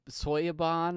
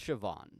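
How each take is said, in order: First: The name is said like 'Soya-bon'. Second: The name is said like 'Shi-vawn'. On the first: The speaker calls it wrong. "I pronounced Soya Soyabon or however I said it" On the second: The speaker calls it right. "but it's it's Siobhan"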